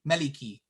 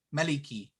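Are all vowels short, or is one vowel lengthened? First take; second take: all short; all short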